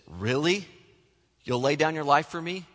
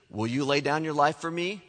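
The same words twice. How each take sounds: First: A light, doubting rise on Really; mildly sarcastic, questioning his promise; a hint of disbelieving sarcasm. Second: Said in the usual way. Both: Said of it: "The sarcastic Jesus".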